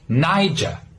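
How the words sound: It ends with an open, non-rhotic R sound. "if you're from the U K, you would pronounce it with an open R sound"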